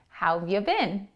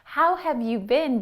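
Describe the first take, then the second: First: The words are said fast and run together. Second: Each word is said fully and separately.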